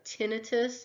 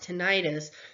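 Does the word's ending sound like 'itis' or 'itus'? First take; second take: itus; itis. First: The ending sounds like 'itus', not 'itis'. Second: The ending sounds like 'itis', not 'itus'. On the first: The speaker calls it right. "I prefer the pronunciation of tinnitus because the ending on this is I T U S" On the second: The speaker calls it wrong. "you'll hear it pronounced tinnitus, but I feel like putting that I T I S on the end"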